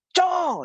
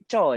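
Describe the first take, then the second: First: High sharp yell of a name. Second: Said in the usual way. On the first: Retold or imitated. Young cousin yells at old man, a high call. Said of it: "Lepas tu dia jerit". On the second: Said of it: "Dia jerit".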